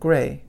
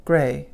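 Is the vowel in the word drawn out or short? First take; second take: short; short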